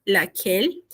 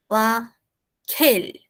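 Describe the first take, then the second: First: Said in the usual way. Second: "laquelle" slow, split, with a puff of air on the K; strongly aspirated. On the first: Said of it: "seu nome, moralmente, em coreano". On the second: Shown as a demonstration. Teacher trying an alternative Korean spelling of a name, aspirated "laquelle". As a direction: break "laquelle" in two, aspirate "quelle". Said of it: "porque seria muito aspirado".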